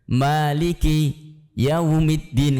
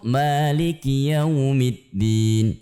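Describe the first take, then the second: First: The words are split apart with a break. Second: The words run together without any break.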